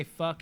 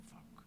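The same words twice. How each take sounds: First: Said in the usual way. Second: Whispered, barely audible swear; silently mouthed curse. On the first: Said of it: "he doesn't say". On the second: Retold or imitated. Imitating Tommy's lip-read curse as he walks away, whispered. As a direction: mouth it with only a breath. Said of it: "like, read his lips".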